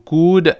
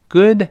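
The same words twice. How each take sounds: First: The final d is fully released. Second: The final d is unreleased. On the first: The speaker calls it wrong. "注意不要读good" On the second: The speaker calls it right. "是good good，这个的又失去爆破了"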